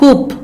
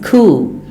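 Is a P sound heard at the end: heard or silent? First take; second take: heard; silent. First: A P sound is pronounced at the end. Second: The final P is silent. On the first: The speaker calls it wrong. "it is not coop" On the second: The speaker calls it right. "Note this word coup"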